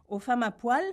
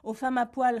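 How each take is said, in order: First: "Aux femmes à poil" as a rising question; questioning echo. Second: Mildly anxious, louder echo; worried repetition. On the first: Therapist echoes patient's words as question. (« Aux femmes à poil » en question, ton montant) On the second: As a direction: repeat it with a touch of worry. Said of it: "répéta Édouard inquiet". (répétition un peu inquiète, plus forte) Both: A narrator's reading.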